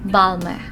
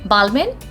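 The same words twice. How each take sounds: First: The final n sound is silent. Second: The final n sound is pronounced. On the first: The speaker calls it right. "We are not going to pronounce N over here, and it's going to be silent" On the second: The speaker calls it wrong. "No, not at all"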